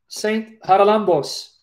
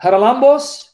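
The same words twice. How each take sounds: First: Haralambos said slowly and deliberately, settling on it with a falling end; confident slow Haralambos; careful pronunciation. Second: Haralambos tried out as a question, rising higher and louder at the end; testing Haralambos, not sure it's right; hesitant guess at Haralambos; unsure pronunciation. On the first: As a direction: pronounce Saint Haralambos carefully, syllable by syllable. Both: Shown as a demonstration. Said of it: "I don't want to mispronounce his name".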